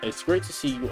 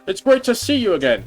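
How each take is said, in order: First: It is said in a normal voice. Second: It is said in an old man voice.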